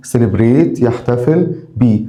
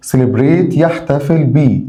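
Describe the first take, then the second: No difference in how they are said.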